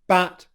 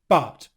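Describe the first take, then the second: First: The vowel is the front 'a' as in cat. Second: The vowel is the further-back 'uh' as in cup. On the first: The speaker calls it wrong. "what Ronaldo has said is bat" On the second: The speaker calls it right. "what we want is but"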